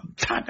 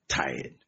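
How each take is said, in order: First: Said in the usual way. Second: Tired said lower and drawn out, sagging; drawn-out weary tired. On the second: Shown as a demonstration. Preacher acting out a weary church member, lower and drawn out. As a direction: let tired sink low and tired. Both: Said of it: "So I'm angry with these people".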